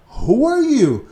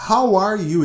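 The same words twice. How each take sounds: First: Who said louder and higher; stress on WHO. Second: Said in the usual way. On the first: Shown as a demonstration. Teacher contrasting Who with How for students, stressing Who. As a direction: lift and punch the word Who. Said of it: "ele pergunta". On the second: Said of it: "Atenção, ele não pergunta".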